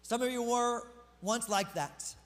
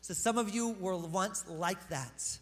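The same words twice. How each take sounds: First: Slow, deliberate scripture read; slow, weighty reading of the verse; slow reading of verse eleven. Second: Slow, deliberate scripture read; slow, weighty reading of the verse; slow verse reread. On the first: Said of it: "I wanna actually talk about verse eleven". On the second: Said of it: "so I could get to verse eleven". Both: Shown as a demonstration. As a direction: lay each word down slowly.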